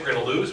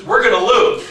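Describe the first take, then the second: First: Said in the usual way. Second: We're gonna lose, pitched high and said loud; emphatic punchline. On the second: Acted. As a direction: punch the repeat home. Punchline repeated louder.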